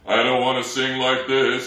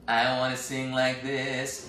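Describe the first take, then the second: First: The voice is heavy and weighted from below. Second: The voice is small, light and boyish.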